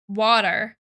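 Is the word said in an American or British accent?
American. It has an American accent with a D-like T.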